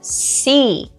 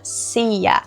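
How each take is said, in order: First: The word ends in a single long vowel. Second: The word ends with an extra 'a' vowel. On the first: The speaker calls it right. "esse A não vai ser pronunciado" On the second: The speaker calls it wrong. "A gente não fala sea"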